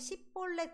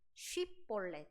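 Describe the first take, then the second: First: It begins with a plain 's' sound. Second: It begins with a 'sh' sound.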